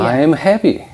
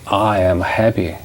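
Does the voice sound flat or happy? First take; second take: happy; flat. First: It is said with real happy feeling. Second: It is said flatly, without feeling.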